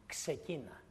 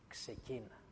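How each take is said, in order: First: God's quiet urging to Gideon; soft command. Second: Near-whispered, fading repeat of ξεκίνα. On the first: God tells Gideon softly to start, quiet urging. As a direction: gently say start. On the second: God repeats to Gideon, fading to a near whisper. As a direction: let ξεκίνα die away almost to a whisper. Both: Retold or imitated. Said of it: "Του λέει".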